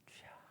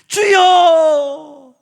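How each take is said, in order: First: It is murmured quietly. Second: It is called out loudly.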